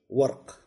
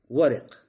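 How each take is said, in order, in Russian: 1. После r гласного нет. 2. После r идет краткий гласный i. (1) "А можно и с сукуном" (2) "Варик с кесрой"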